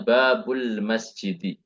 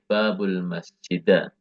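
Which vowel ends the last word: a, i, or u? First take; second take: i; a. First: The last word ends in an i vowel. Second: The last word ends in an a vowel. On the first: The speaker calls it right. "kita di sini harus membacanya" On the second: The speaker calls it wrong. "dan juga tidak boleh"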